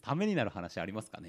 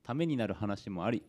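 First: ためになる話 read back with a doubting lilt; doubtful question. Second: Said in the usual way. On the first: Shown as a demonstration. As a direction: question the claim, teasing. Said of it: "ないですね".

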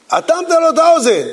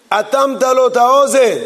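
First: אטמת לו את האוזן said much higher, with stress on האוזן; emphatic repeat. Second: Said in the usual way. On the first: Shown as a demonstration. Rabbi repeating the point to the class, emphatic and higher. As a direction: hammer home האוזן in a higher voice.

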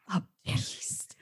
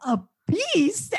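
First: Breathy mock ASMR whisper of a beast; whispered ASMR parody. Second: Mock indignation. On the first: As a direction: hush it like an ASMR dub. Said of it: "the A S M R whisper dub". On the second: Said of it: "Eileen being like".

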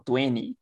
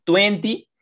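First: Twenty with the t dropped, like tweny; native twenty. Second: Twenty with both t sounds fully pronounced; learner twenty. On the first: Friend showing the native way to say twenty, no t. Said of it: "Es muy nativo". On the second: Friend showing how learners say twenty, every t clear. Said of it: "es para los que están aprendiendo". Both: Shown as a demonstration.

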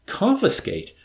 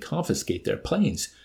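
First: Confiscate! spat out higher and louder; indignant exclamation. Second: Said in the usual way. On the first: A narrator's reading. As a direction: fling the word Confiscate! in outrage. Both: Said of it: "The mere word was anathema".

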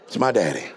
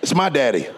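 First: Much lower and softer, said close; quiet tender echo. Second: Said in the usual way. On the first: Shown as a demonstration. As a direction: hush it like a loving secret.

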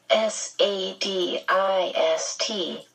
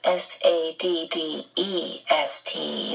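First: "S A D I S T" spelled letter by letter, slowly; spelling it out. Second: "S A D D E S T" spelled letter by letter, slowly; spelling it out. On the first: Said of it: "That's S A D I S T, not S A D D E S T". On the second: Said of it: "not S A D D E S T". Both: Acted.

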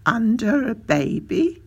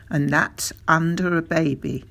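First: Put-on "Under a baby" higher, rising into a question; astonished echo question. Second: Said in the usual way. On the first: A narrator's reading. Doctor echoing the father's odd plan, "Under a baby" as astonished question.

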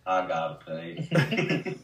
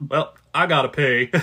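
First: Very slow, drawn-out Forrest line; Forrest Gump voice. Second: A hint of Forrest on "pee"; Forrest-style announcement. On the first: Retold or imitated. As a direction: stretch out "pay" like Forrest. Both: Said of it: "I say it like that".

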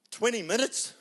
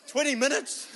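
First: Said in the usual way. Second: Twenty minutes? cried much higher with a laugh; disbelieving echo, laughing; incredulous laughing repeat. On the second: Retold or imitated. Pastor voicing a hurt believer, laughing disbelief.

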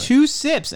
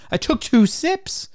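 First: Two hit high and loud; incredulous emphasis. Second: Two stretched high and slow; incredulous emphasis. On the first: Repeating complaint to friend, high incredulous stress. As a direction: punch two in disbelief. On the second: Complaining about refills after two sips, high and slow. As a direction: stress two in disbelief. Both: Retold or imitated.

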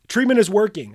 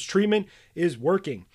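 First: "Treatment is working" pressed out louder and higher; a coach stating "Treatment is working" with weight; key phrase, emphatic. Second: Said in the usual way. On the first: Shown as a demonstration. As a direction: announce "Treatment is working" firmly, leaning on Treatment. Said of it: "A key phrase that you must say". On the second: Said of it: "One phrase that's gonna totally change".

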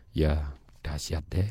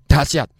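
First: Low, soft and slow, no energy at all; flat listless reply. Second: Short burst, punched out loud; energetic answer. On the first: Speaker showing the wrong way to answer "how are you", flat listless mumble. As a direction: drag it out half-heartedly, much lower. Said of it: "Ya ndak dahsyat itu... Nadanya beda". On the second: Speaker answering "how are you" with gusto, loud energetic reply. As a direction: answer with full conviction, louder. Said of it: "Apa kabar?" Jawaban saya". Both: Shown as a demonstration.

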